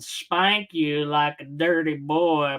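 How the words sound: It is read in a put-on cartoon character voice. The speaker calls it right. "I think I was meant to read it in Mister Garrison's voice"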